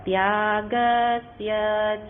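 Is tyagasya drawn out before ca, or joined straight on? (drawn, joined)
drawn. Tyagasya is drawn out before ca. The speaker calls it wrong. "કેટલાક ત્યાગસ્ય પાસે લંબાવે છે ને, ... એ રીતે બોલવાનું નથી"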